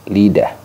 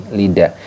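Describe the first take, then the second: No difference in how they are said.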